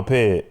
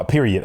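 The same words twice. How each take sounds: First: "period" cut to "pid"; Chicago pronunciation. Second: "period" with all its syllables, PEER-ee-id; full pronunciation. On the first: Host using it in a sentence, "period" as "pid". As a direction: say "period" as one short syllable. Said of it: "Like, say, like". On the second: Host testing whether he can say it, "period" in full. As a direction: carefully spell out "period" by sound. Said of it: "I don't know if I". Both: Shown as a demonstration.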